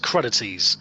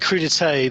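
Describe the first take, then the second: First: It is pronounced the English way. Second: It is pronounced the French way. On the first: The speaker calls it wrong. "they say it's crudities" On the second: The speaker calls it right. "rather than crudité"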